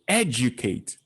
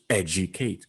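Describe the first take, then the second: First: The stress is on the first syllable. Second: The stress falls on a later syllable. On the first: The speaker calls it right. "E is the stress part of that verb" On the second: The speaker calls it wrong. "But if it is unstressed, it becomes educate"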